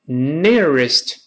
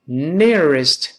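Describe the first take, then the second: No difference in how they are said.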